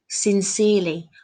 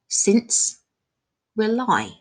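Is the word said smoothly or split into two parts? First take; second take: smoothly; split. First: The word is said smoothly as one unit. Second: The word is split into two separate words.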